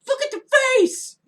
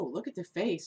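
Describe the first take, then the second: First: It is yelled loudly. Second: It is said at normal volume.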